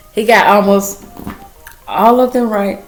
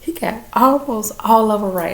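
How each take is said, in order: First: Repeated louder for emphasis; emphatic repeat. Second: Said in the usual way. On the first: Real, not acted. Mother repeating son's test result to viewers, louder and emphatic. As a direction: punch the whole line out proudly. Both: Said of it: "And I'm sorry, y'all".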